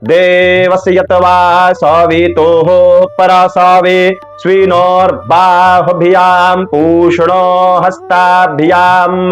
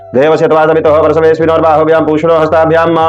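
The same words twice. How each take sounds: First: It is recited slowly and steadily. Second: It is recited quickly and hurriedly. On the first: The speaker calls it right. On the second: The speaker calls it wrong.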